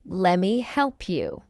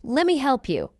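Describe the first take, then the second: First: Slow, measured "Lemme help you"; slow model. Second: Quick, run-together "Lemme help you"; fast English. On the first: Teacher models the phrase for learners first, slowly. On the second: Teacher trains learners' ears, fast. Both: Shown as a demonstration. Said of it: "fast English is not difficult".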